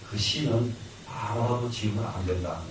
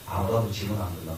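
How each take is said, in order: First: Said in the usual way. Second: 아무라도 leaned on, quicker and lower; stress on 아무라도. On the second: Shown as a demonstration. Teacher repeats the rule to students, leaning on 아무라도. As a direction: hit 아무라도 in a quick low restatement.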